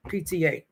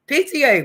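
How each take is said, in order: First: Said in the usual way. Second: High, loud burst of recognition; excited recall. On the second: Real, not acted. Vlogger suddenly remembering the show name, excited high call. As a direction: shout it out as the name clicks.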